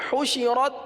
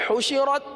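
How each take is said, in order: Both takes have the same delivery.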